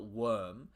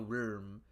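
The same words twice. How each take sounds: First: It is said as the ordinary word worm. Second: It is said with the wyrm pronunciation. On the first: It names an everyday worm. The speaker calls it wrong. "not worm" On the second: It names a mythological serpent-like creature. The speaker calls it right. "I'm using the Y pronunciation"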